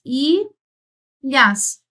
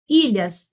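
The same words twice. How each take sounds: First: ILHAS split as iii, then lhas; syllable by syllable. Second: Said in the usual way. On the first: Shown as a demonstration. Teacher sounding out a word to count, syllables drawn apart. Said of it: "o que tem cinco fonemas". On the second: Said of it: "nós temos cinco fonemas".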